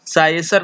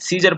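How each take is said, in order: First: The first syllable sounds like 'sigh'. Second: The first syllable sounds like 'see'. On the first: The speaker calls it wrong. "इसको हम लोग साइसर नहीं पढ़ते हैं" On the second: The speaker calls it right. "सीजर पढ़ते हैं"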